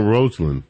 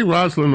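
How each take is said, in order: First: "Rosalind" said with a long O, like "rose"; ROSE-alynn pronunciation. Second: "Rosalind" said with a short vowel, like "Roz"; ROZ-alynn pronunciation. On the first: Host offering the other form, "Rosalind" starting ROSE. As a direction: open "Rosalind" with ROHZ. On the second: Host checking which he said, "Rosalind" starting ROZ. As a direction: open "Rosalind" with RAHZ. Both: Shown as a demonstration. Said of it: "Did I say Rosalind or Rosalind".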